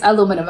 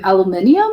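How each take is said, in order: First: Said in the usual way. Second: "aluminium" with an extra syllable before the final um; "aluminium" sounded out tentatively, ending in ee-um; British pronunciation. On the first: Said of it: "it's aluminum". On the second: Shown as a demonstration. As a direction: say "aluminium" the British way, al-yoo-MIN-ee-um. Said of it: "how do British people say".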